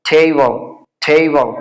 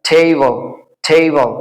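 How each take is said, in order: The two takes are said the same way.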